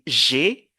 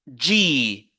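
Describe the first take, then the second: First: It is said with a soft 'zh' sound, 'zhay'. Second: It is said with a 'j' sound, 'jee'. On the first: This is the French name of the letter. "En français, on dit G" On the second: This is the English name of the letter. "mais en anglais, on dit G"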